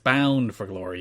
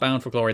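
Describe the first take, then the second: First: The word bound is held long and drawn out. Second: The word bound is said short and quick. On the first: The speaker calls it right. "You hold the bound. You always hold the bound" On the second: The speaker calls it wrong. "It's not Bound for Glory"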